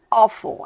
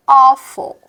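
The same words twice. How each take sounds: First: Said in the usual way. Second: Awful said loud with a wide open O, like aw-ful; stressed demo. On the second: Shown as a demonstration. Teacher drills the open O in awful, loud. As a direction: belt out awful with a big open O. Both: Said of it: "Everybody is".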